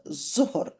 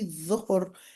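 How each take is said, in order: First: The word begins with a buzzing 'z' sound. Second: The word begins with a soft 'th' sound. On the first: The speaker calls it wrong. "not zuhr" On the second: The speaker calls it right. "it's actually dhuhr"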